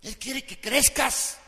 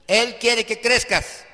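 First: Said in the usual way. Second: Emphatic. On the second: Real, not acted. Preacher stressing God's will.

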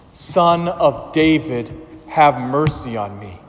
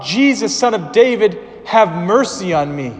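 First: Slow, drawn-out plea; crying out all the more. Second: High, loud plea for mercy; crying out. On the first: Blind man pleading again to Jesus, slow and drawn out. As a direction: stretch each word of the plea. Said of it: "But he cried out all the more". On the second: Blind man crying out to Jesus, loud high plea. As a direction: call out to the passing Savior, raised and pleading. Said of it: "he cried out". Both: Acted.

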